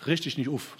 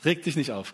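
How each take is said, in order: First: "Richt dich nicht auf" in Hessian dialect, "auf" said as "uf"; light Hessian pronunciation, "auf" turned into "uf"; Hessian accent. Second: Said in the usual way. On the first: Shown as a demonstration. Preacher playfully quoting his slogan in Hessian dialect, Hessian accent. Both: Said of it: "wie man das auch hessisch ausspricht".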